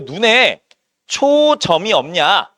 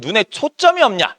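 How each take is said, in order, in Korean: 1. '초' 뒤의 자음은 평음이에요, 된소리가 아니에요. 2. '초' 뒤의 자음은 된소리예요, '쩜'처럼요. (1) "이렇게 안 하죠" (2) "이런 식으로 발음하지"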